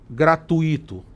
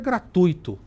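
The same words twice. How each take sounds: First: The stress falls on the 'i' sound. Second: The stress falls on the 'tu' sound. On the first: The speaker calls it wrong. "a gente não fala" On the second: The speaker calls it right. "O certo é gratuito"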